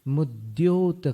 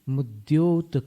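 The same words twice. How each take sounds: The two takes are said the same way.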